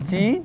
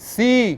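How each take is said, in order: First: The letter name begins with a 'ch' sound. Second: The letter name begins with an 's' sound. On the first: The speaker calls it wrong. "চি কি?" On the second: The speaker calls it right.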